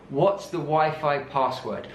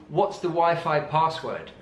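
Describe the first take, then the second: The two takes are said the same way.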